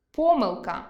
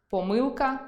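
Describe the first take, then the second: First: Помилка stressed on о, по́милка; stress on the first syllable. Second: Помилка stressed on и, поми́лка; stress on the second syllable. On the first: Teacher demonstrating по́милка. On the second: Teacher giving the variant поми́лка. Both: Shown as a demonstration. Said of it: "Наприклад".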